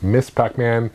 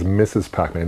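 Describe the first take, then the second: First: The title is said with one syllable, 'miss'. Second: The title is said with two syllables, 'missus'. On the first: The speaker calls it right. "No, it's Miss Pac-Man" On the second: The speaker calls it wrong. "A lot of people mispronounce it as Missus Pac-Man"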